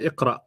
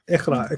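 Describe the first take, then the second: First: The middle consonant is a deep throat q sound. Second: The middle consonant is a raspy kh sound. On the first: The speaker calls it right. "I'm pretty sure they meant Iqra" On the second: The speaker calls it wrong. "K H, right?"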